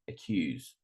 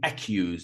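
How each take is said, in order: First: The stress is on the second syllable. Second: The stress is on the first syllable. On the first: The speaker calls it right. "this is correct" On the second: The speaker calls it wrong. "I'm not saying accuse"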